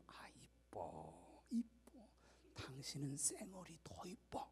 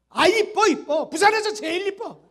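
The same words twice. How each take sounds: First: Soft, slow whispered compliment; tender whisper. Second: Much louder and higher, tossed off without care; careless loud compliment. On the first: Husband answering his wife at her makeup in a tender whisper. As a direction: breathe it lovingly into her ear. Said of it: "좋은 억양으로 얘기해 주세요". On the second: Husband yelling a compliment at his wife, loud and careless. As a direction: shout the compliment like an annoyed husband. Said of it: "그러지 말고 좋은 억양으로 얘기해 주세요". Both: Retold or imitated.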